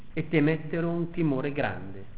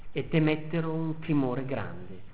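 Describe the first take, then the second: No difference in how they are said.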